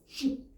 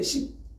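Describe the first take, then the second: First: The word begins with an sh sound. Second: The word begins with a plain s sound. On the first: The speaker calls it right. "시옷에다가 수에다가 쉽" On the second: The speaker calls it wrong. "근데 이 사람들은 이걸 발을 못해요. 그냥 십으로 해요"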